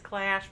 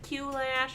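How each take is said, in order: First: It sounds just like the word clash. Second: The letter Q is said separately before lash.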